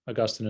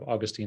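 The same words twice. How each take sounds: First: The name is said the British way. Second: The name is said the American way. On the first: "I say Augustine ... That's how they say it in England" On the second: "instead of Augustine"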